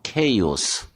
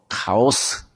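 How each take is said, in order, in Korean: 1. 첫 모음은 '에이'처럼 들립니다 (kay-os). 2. 첫 모음은 '아'처럼 들립니다 (ka-os). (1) "정확한 발음은 케이오스" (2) "영어로 카오스"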